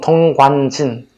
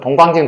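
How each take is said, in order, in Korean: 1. 이 이름은 보통 속도로, 또박또박 말했어요. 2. 이 이름은 빠르게, 뭉개지듯 이어서 말했어요.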